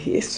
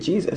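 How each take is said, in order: First: The name starts with an H sound. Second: The name starts with a J sound. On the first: "we say Jesus" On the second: "We just don't say Jesus"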